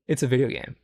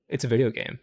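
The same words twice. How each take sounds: The two takes are said the same way.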